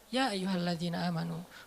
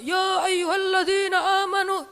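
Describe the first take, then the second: First: It is said calmly, in a relaxed voice. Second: It is said loudly, like a shout.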